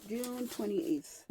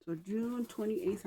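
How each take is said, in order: First: Slow, higher June twenty-eighth, stress on June; correcting the date. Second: Said in the usual way. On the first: Shown as a demonstration. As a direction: land hard on June to fix the slip. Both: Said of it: "why do I keep saying July?".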